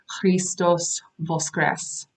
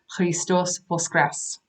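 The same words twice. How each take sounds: First: The stress is not on the last syllables. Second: The stress is on the last syllables. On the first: The speaker calls it wrong. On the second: The speaker calls it right.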